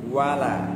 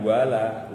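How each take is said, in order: First: The 'wa' syllable is light, with rounded lips. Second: The 'wa' syllable is made heavy and thick. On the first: The speaker calls it right. "Harusnya apa? Monyong wa" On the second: The speaker calls it wrong. "Wa jangan sampai ditebalkan, jangan wala"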